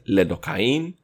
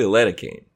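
First: The word is said with Hebrew pronunciation. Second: The word is said with English pronunciation. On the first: "In Hebrew it's" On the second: "In English it's probably"

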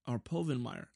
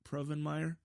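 First: No R sound follows the first P. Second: An R sound follows the first P. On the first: The speaker calls it right. "There's no R there" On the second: The speaker calls it wrong. "I think I'm saying that right"

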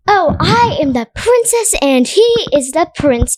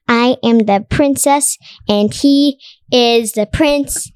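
First: It is said openly, with full expression. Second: It is said flatly, without expression.

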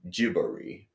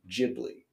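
First: The name is said with a Japanese pronunciation. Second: The name is said with an English pronunciation. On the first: "in Japanese it is pronounced Jibori" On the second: "in English it is Ghibli"

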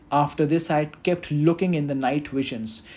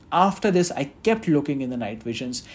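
No difference in how they are said.

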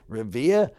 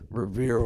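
First: It is said in a local Massachusetts accent. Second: It is said in a plain, ordinary accent.

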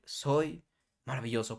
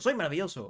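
First: It is said slowly. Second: It is said fast.

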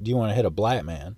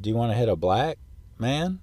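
First: Black and man run together with no pause. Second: A short pause separates black from man. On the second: "Instead of"

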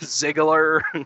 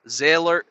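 First: The G sound is pronounced. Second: The G sound is left out. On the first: The speaker calls it right. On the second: The speaker calls it wrong.

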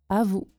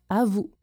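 Both takes have the same delivery.

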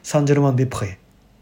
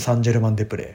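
First: It is said in French pronunciation. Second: It is said in Japanese pronunciation.

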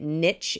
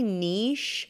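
First: The word is pronounced the American way. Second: The word is pronounced the French way. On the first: "to say it niche is like more American" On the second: "because it looks kind of like French to me"

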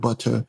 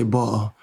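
First: It is said in a standard, non-London accent. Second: It is said in a London accent. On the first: "instead of butter" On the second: "with the London accent, ... they say butter"

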